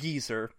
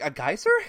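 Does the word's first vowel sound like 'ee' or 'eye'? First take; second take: ee; eye. First: The first vowel sounds like 'ee'. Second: The first vowel sounds like 'eye'. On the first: "in British English, is pronounced more like geezer" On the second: "reading it, I'm just like"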